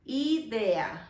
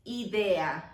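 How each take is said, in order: Both takes have the same delivery.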